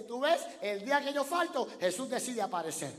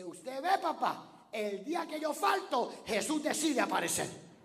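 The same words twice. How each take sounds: First: Put-on loud, high, offended child's cry; Juanito's complaint shouted a second time; indignant little boy again. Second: Put-on loud, high indignant child's cry; a boy's outraged punchline, loud and high; angry little boy. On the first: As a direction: repeat the boy's punchline at full volume. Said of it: "Juanito dice". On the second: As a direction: shout it as an offended Juanito. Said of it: "Y le dice".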